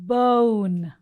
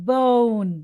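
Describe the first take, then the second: The two takes are said the same way.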